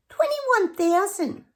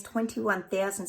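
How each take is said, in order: First: High, loud, drawn-out disbelief; incredulous exclamation. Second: Said in the usual way. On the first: Real, not acted. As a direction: exclaim it slowly, way up high, appalled by the figure. Figure repeated, exclaimed in disbelief.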